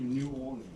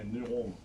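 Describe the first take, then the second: First: It is said with a non-American pronunciation. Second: It is said with an American pronunciation.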